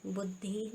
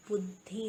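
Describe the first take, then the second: First: बुद्धि with long final ee, buddhee; wrong pronunciation. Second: बुद्धि with short final i, buddhi; correct pronunciation. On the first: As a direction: stretch the end of बुद्धि. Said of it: "नहीं होता". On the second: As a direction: keep the last vowel of बुद्धि short. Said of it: "छोटी की मात्रा आती है". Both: Shown as a demonstration.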